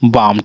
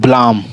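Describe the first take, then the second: First: The L sound is silent. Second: The L sound is pronounced. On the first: The speaker calls it right. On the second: The speaker calls it wrong.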